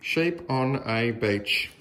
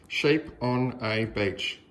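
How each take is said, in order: Both takes have the same delivery.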